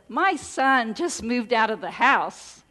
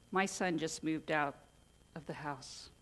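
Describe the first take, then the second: First: The voice sounds joyful and delighted. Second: The voice sounds sad and downcast. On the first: The speaker is glad the son has left. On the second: The speaker is sorry the son has left. "Kind of sad"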